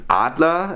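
It is said with a German pronunciation. The speaker calls it right. "normally you pronounce it Adler"

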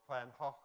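The name is said with a Dutch pronunciation.

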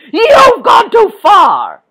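It is yelled angrily and loudly. The speaker is furious. The speaker calls it right. "Do you think Toughy would have yelled like that?"

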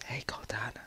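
It is said in a whisper.

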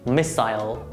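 It is said with British pronunciation. "British pronunciation"

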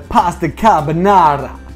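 It is said in a put-on Italian accent. "You couldn't get your tongue around the Italian accent"

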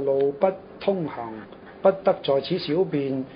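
The first pause comes after the fourth syllable. The road is closed; do not urinate here. "這個斷句斷咗就喺個路不通行"

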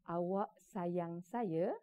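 The phrase ends with a final stop, as a statement. It states that you love me. "itu ayat penyata"

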